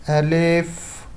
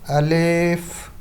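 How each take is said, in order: No difference in how they are said.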